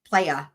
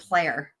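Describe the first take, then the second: First: The word ends with an 'ah' sound. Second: The word ends with an 'er' sound.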